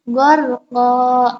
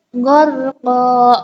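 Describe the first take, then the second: No difference in how they are said.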